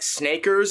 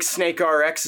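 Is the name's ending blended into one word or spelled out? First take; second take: blended; spelled out. First: The ending is blended into one word. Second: The ending is spelled out as letters. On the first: The speaker calls it wrong. "not Snakers, as I pronounced it last week" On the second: The speaker calls it right. "that's how you're supposed to pronounce it"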